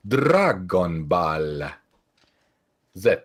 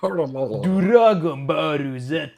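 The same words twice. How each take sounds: First: "Dragon Ball Z" drawn out slowly, each syllable spaced; Japanese-style Dragon Ball Z. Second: "Dragon Ball Z" as "Doragon Bōru Zetto", very slow; Japanese pronunciation. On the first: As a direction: say "Dragon Ball Z" slow and stretched. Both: Retold or imitated. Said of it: "it's a Japanese pronunciation".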